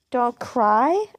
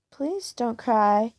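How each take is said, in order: First: Mock echo with a scornful rise; sarcastic repeat, a touch louder. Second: A hint of a rough but tender killer; rough, smooth voice. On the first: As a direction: throw his words back at him. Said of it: "I mock". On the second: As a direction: soothe her gently, taking your time. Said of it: "a rough, smooth voice says".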